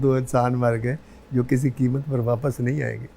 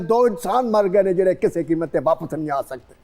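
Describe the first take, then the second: First: It is said in a romantic mood. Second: It is said grandly and angrily.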